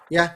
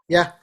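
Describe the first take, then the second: The two takes are said the same way.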